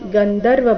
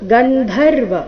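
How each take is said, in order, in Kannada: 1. ಮಧ್ಯದ ವ್ಯಂಜನ ಅಲ್ಪಪ್ರಾಣ, ಮಹಾಪ್ರಾಣವಲ್ಲ. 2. ಮಧ್ಯದ ವ್ಯಂಜನ ಮಹಾಪ್ರಾಣ. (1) "ಬೇಡ" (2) "ಇಲ್ಲಿ ಧ"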